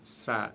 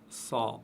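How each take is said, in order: First: The consonant is light and thin. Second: The consonant is heavy and thick. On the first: The speaker calls it right. "prononcé légèrement" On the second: The speaker calls it wrong. "et non pas"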